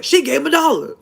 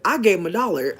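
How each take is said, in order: First: Much higher, loud cartoon dad voice; high loud mock Chef Dad; imitating Chef Dad. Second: Mock shouted cartoon mom line; louder mock Chef Mom; imitating Chef Mom. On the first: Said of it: "Chef Dad was like". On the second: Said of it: "When Chef Mom said".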